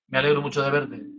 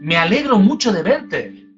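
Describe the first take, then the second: First: The tone is flat and unenthusiastic. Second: The tone is warm and enthusiastic. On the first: The tone betrays that the speaker is not really glad. The speaker calls it wrong. "No es decir a alguien" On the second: The speaker is truly glad to see the person. The speaker calls it right. "Quiere decirle"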